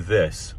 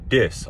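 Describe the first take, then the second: First: The word begins with a soft th sound. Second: The word begins with a hard d sound. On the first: "We don't say this" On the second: "We say this. ... ça devient euh, de. On dit de en, en Cajun"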